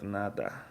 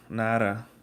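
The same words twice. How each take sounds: First: The middle consonant sounds like a soft d. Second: The middle consonant sounds like an English r. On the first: The speaker calls it right. "instead of nada" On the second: The speaker calls it wrong. "they say their D's like R's"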